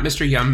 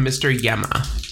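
First: "Mister Yum" said with a short "yum", single syllable; "Mister Yum", clipped to one beat; mispronounced name. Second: "Mister Yemma" said slowly, two syllables "yem-ma"; "Yemma" stressed and drawn out; corrected name. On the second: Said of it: "not Mister Yum". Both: Shown as a demonstration.

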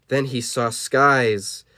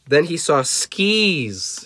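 First: "skies" said with a long eye vowel; slow reading, "skies" with an eye sound; misread word. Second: "skis" with a long ee vowel; slow reading, "skis" drawn out with an ee; corrected word. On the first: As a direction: read "skies" slowly, rhyming with eyes. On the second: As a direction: stretch out "skis", rhyming with keys. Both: Real, not acted.

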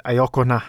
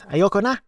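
First: Put-on a first stiff go at "Ayoko na" with an awkward Tagalog accent, level pitch; Tagalog phrase, self-mocked accent. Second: "Ayoko na" pitched much higher, rising on "na"; mock exclaim. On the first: Retelling his wife's line, he says "Ayoko na" in a stiff Tagalog accent. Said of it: "Man, my accent sucks ass". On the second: Imitating his wife's joking outcry at the movie, "Ayoko na" high and rising. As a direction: imitate a wife's playful outburst, voice jumping up on "Ayoko na". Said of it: "My wife at this point exclaims".

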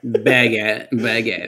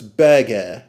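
First: Burger said as bah-gah with no R; British burger. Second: Burger said without the R, like bah-gah; British pronunciation. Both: Shown as a demonstration. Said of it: "it's burger".

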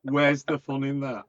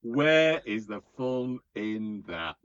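First: Loud, higher comic objection; mock protest. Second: Loud, drawn-out mock protest; slow emphatic repeat. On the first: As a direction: protest loudly in mock disbelief. Mock protest, then slower repeat. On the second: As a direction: stretch every word out in mock outrage. Repeats the question slowly for emphasis.

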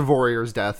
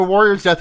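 First: "warrior's" begun with a V sound; punning mispronunciation. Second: Said in the usual way. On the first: Shown as a demonstration. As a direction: say "warrior's" as "vorrior's", V for W. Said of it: "that's a vor". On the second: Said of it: "that's a warrior's death".

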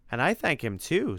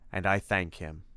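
First: Higher, lightly voiced eager monster; grateful monster. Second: Understated formal hero; Simon, sober gratitude. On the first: Freddy chimes in to thank Timothy, eager gratitude. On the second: Acted. Simon credits Tim with helping him, sober gratitude. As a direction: give thanks gravely and evenly.

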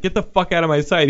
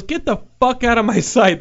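First: Milder repeat, less raised; milder retelling. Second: High, shouted angry order; angry yell. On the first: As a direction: say it calmer, just reporting. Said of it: "The guy was just like". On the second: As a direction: yell him out the door. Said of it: "he goes". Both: Retold or imitated.

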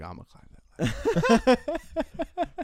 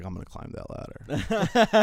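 First: Much higher, louder and very slow, stretched-out squeal; exaggerated drunk buddy. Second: Put-on louder, slow, higher drunk brag; mock buddy boast. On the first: Friend insisting again on climbing the cage ladder, hammed-up squealing brag. Buddy repeats boast, bigger. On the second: Drunk buddy announcing he'll climb the club ladder, mock boast. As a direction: drag it out like a cocky drunk friend.

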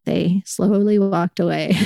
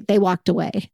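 First: "slowly" stretched, the whole line slowed down; slow and drawn out. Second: Said in the usual way. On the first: Real, not acted. Slowed down, telling how the stranger backed off her bag. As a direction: draw it out like they backed off.

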